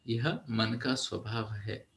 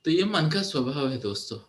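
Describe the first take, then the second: First: Softer and slower restatement; hushed, slowed emphasis; soft slow repeat. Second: Said in the usual way. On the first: Shown as a demonstration. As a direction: let it sink in, slowly and quietly. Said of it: "repeated softer slower". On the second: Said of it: "repeated softer".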